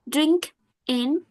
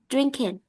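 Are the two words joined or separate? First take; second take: separate; joined. First: The two words are said separately. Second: The two words are joined into one.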